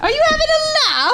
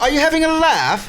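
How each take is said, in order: First: Very high, fast Aussie eshay squeal; Aussie eshay slang. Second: High, loud Aussie eshay taunt; mock an Aussie lad picking a fight; Aussie eshay slang. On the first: Acted. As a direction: rattle it off like a shrieking Aussie lad. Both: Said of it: "aussie eshay slang".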